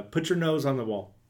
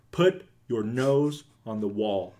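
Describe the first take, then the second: First: Said in the usual way. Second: Slow, spaced-out order; slow deliberate repeat. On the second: Retold or imitated. Dad repeating his order to confused girls, slow and deliberate. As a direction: repeat it slowly, word by word.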